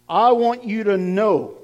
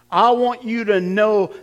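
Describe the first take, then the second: No difference in how they are said.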